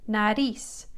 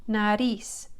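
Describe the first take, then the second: The two takes are said the same way.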